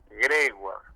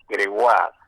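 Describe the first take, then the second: First: The stress falls on a different syllable. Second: The stress falls on the A sound. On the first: This is how the announcer said the name. The speaker calls it wrong. "y lo acentuó así" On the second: This is how the family says the name. The speaker calls it right. "con acento en la A"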